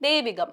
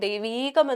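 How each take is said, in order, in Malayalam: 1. നടുവിലെ ഇ സ്വരം ഹ്രസ്വമായി നിലനിർത്തുന്നു. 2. നടുവിലെ ഇ സ്വരം ദീർഘമാക്കുന്നു. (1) "ഇകാരം അവിടെ ഹ്രസ്വമായിട്ട് ഉച്ചരിച്ചാൽ മതിയാവും" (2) "അവിടെ ദൈവീകമല്ല വേണ്ടത്"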